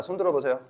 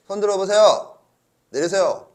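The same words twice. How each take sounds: First: Said in the usual way. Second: Louder, higher call to the class. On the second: Real, not acted. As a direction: call out for raised hands. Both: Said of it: "calling a show of hands".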